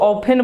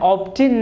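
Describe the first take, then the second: First: The word is said without a t sound. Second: The word is said with a t sound. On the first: The speaker calls it right. "इसको ऑफेन बोला जाता है" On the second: The speaker calls it wrong. "ऑप्टिन नहीं बोलेंगे"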